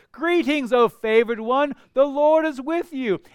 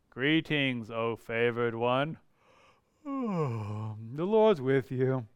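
First: High, loud joyful announcement; a bright herald's call; excited angel greeting. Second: Low, soft, slow and dull; mock-bored angel with a sigh; bored monotone. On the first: Acted. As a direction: burst in with the good news. Preacher voices angel's greeting. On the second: Shown as a demonstration. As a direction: drone it out like it means nothing. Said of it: "I don't think Gabriel was monotone".

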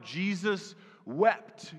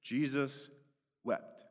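First: Jesus wept, drawn out very slowly; verse quoted slowly. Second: Jesus wept, softer and lower with a long pause between; hushed scripture quote. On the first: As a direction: let each word of Jesus wept hang. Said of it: "the shortest verse in all the Bible". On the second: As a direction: let Jesus wept fall into a hush. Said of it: "And the scripture says". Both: Shown as a demonstration.

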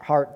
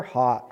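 First: Said in the usual way. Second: Accidental Rhode Island "heart" with the r dropped; non-rhotic Rhode Island "heart"; Rhode Island accent. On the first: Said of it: "Sorry, Rhode Island accent". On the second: Real, not acted. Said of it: "Rhode Island accent was coming out".

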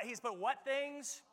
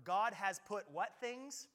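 First: Higher, slow call-and-response; preacher coaxing the crowd to answer; prompting the crowd again. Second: Slow, rising call for the answer; prompting the crowd. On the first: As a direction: push them to answer louder. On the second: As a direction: draw out the question for them to shout back. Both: Shown as a demonstration. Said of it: "nine A M was louder than you guys".

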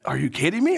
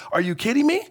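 First: Said in the usual way. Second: Pitched way up in disbelief; Are you kidding me? climbing high, half-laughing at the absurdity; incredulous. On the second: Retold or imitated. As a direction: throw it up high, can't believe it. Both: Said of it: "Habakkuk is like".

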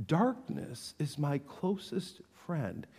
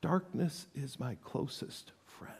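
First: Quiet repeat. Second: Hushed, breathless whisper; whispered despair; whispered lament. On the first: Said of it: "He didn't qualify this a bit". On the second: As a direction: whisper it like a confession. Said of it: "Cry out". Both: Acted.

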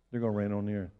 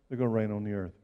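Both takes have the same delivery.

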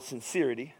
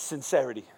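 First: "sincerity" with a long EE in the middle; "sincerity" pronounced sin-SEER-ity. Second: "sincerity" with a short E, sin-SERR-ih-tee; "sincerity" pronounced sin-SERR-ity. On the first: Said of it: "argument ... I don't wanna say that word". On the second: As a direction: say the middle of "sincerity" like the start of "serenade", stressed. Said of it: "but it's sincerity". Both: Shown as a demonstration.

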